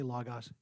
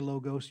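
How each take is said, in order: First: The first vowel is a short o sound. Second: The first vowel is a long o sound. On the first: The speaker calls it right. "Just say logos. You have it right" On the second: The speaker calls it wrong. "Some of you folks will probably say logos. You're wrong"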